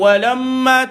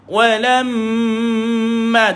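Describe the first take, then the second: First: The m carries a short, weak nasal hum. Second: The m carries a full, long nasal hum. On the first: The speaker calls it wrong. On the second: The speaker calls it right.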